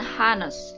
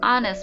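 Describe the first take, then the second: First: The word begins with an h sound. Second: The word begins with a vowel sound. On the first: The speaker calls it wrong. "bukan honest" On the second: The speaker calls it right. "walaupun diawali dengan huruf H, ya tetapi dibacanya honest"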